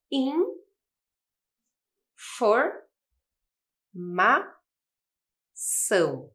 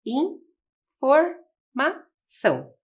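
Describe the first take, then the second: First: In, for, ma, são, each syllable said apart with pauses; syllable by syllable, slowly; split into syllables. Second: Informação drawn out very slowly as one word; slow whole word. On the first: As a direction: break the word into its syllables for a child. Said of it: "organização das sílabas". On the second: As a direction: stretch informação out for young learners. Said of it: "ficamos com a palavra". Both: Shown as a demonstration.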